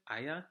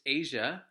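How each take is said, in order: First: The name is said the German way. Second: The name is said the usual English way. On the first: The speaker calls it right. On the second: The speaker calls it wrong.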